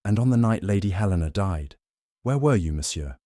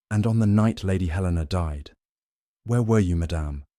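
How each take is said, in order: First: Lightly voiced Belgian detective, pointed; detective's pointed question; Poirot's question. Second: Repeated pointed question; Poirot's question. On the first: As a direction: press the question home. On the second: Acted. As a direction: press the question home gently. Poirot questioning Mrs Pound.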